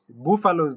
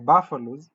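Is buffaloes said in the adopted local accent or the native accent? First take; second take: native; adopted local. First: It is said in the speaker's native accent. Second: It is said in the adopted local accent. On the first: The speaker calls it wrong. "They are not" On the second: The speaker calls it right. "they are"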